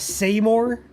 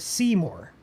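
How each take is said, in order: First: The second part sounds like the word 'more'. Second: The second part does not sound like 'more'. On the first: "like s- saying more" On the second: "but people also call it Seymour"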